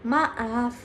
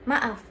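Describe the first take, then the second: First: The vowel is drawn out and long. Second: The vowel has a normal, short length. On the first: "Vokal panjang" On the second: "Vokal normal"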